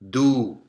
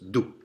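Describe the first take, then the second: First: The vowel is held long. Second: The vowel is kept short. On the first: "If it was followed by the long vowel, it would be do" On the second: "It's a short vowel. So it's do"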